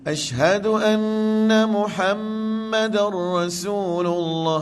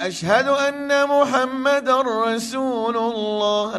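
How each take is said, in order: First: The nasal sound is held for two beats. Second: The nasal sound is cut short, not prolonged. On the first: It sounds more careful and polite. "tapi kalau boleh bunyi dengung dia tu" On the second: This is how the call is done in Mecca. "Cuba dengar azan Mekah, tak ada dengung"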